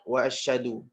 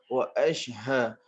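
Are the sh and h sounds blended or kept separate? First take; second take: blended; separate. First: The sh and h blend into one sound. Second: The sh and h are two separate sounds. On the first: The speaker calls it wrong. "Itu adalah sebutan yang salah" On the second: The speaker calls it right. "Shin dengan ha jangan disambungkan. Wa ash satu bunyi, ha satu bunyi"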